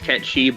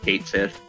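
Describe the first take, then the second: First: The name sounds like 'ketchy', two syllables. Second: The name sounds like 'kate sith', two words. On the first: This is the technically correct form. "technically it's Ketchi" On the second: This is how most people say it. "everyone calls it Kate Sith"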